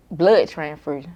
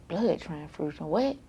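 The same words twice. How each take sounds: First: Said in the usual way. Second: Can't believe what she heard; shocked disbelief. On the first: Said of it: "they were like". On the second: Retold or imitated. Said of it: "I'm like".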